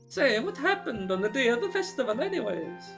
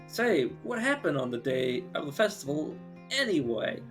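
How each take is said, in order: First: It is spoken with an Italian-sounding accent. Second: It is spoken without any put-on accent. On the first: "It's supposed to be Mexican, clearly. I think. And I'm and I'm making the Italian" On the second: "now it's just like one step away from being Christopher Walken. All it had to do was like add in the accent"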